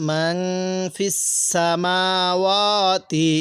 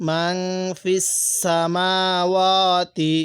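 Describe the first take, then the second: Both takes have the same delivery.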